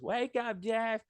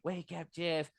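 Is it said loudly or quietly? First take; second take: loudly; quietly. First: It is said loudly. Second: It is said quietly.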